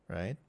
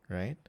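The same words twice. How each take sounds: The two takes are said the same way.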